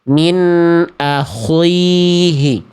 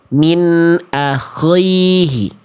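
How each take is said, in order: First: The kh is said with rounded lips. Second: The kh is said very heavy and thick. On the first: "huruf kh-nya dibaca monyong" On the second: "masih ketebelan"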